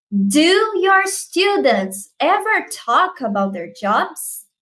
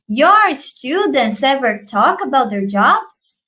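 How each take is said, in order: First: Slow question with "Do" leading, high and drawn out; stress on DO. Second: Slow question, rising at the end on "jobs?"; question intonation. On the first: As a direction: lean on the opening "Do", slowly. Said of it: "Você precisa colocar o do lá no início". (ênfase no "Do" inicial, pergunta lenta) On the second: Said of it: "Você pode fazer entonação de pergunta". (entonação de pergunta, subindo em "jobs?") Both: Shown as a demonstration.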